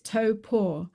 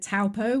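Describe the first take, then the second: First: The name is said like 'toe paw'. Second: The name is not said like 'toe paw'. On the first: The speaker calls it right. "just remember your big toe and the cat's paw" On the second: The speaker calls it wrong. "We thought it was pronounced Taupo"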